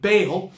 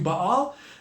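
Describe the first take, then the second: First: The name is said in a familiar English style. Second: The name is said in a Middle Eastern style. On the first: "you probably are familiar with the pronunciation of Baal" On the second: "the Middle Eastern pronunciation is probably closer to Baal"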